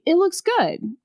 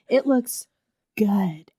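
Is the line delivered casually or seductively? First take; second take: casually; seductively. First: It is said in a plain, casual way. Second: It is said in a sultry, seductive way. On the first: The book itself looks nice. The speaker calls it right. "Which I think the line was supposed to be" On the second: The remark carries a flirtatious suggestion. The speaker calls it wrong. "It's not a sexy book"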